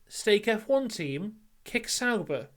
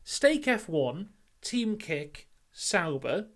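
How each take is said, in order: First: There is a pause after 'Team'. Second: There is a pause after 'F one'.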